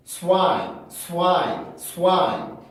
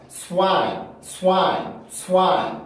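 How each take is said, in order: Both takes have the same delivery.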